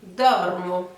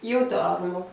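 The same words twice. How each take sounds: First: Dormo said in Italian, stress on dor; dormo, open o sounds, Italian r; teacher modelling dormo; Italian model word. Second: Io dormo, stress on dor, Italian r; teacher repeats Io dormo; Italian model phrase. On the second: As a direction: say Io dormo clearly for learners. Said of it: "première personne du singulier". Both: Shown as a demonstration.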